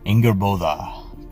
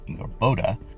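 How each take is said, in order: First: The consonant before the final vowel is th. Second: The consonant before the final vowel is d. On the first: The speaker calls it right. "this is an F, not a D" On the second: The speaker calls it wrong. "commonly mispronounced and misspelled Ingarboda"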